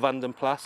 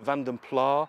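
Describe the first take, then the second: First: The final s of the name is sounded. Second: The final s of the name is silent. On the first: The speaker calls it right. "it is Van den Plas" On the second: The speaker calls it wrong. "whether you pronounce it Van den Pla"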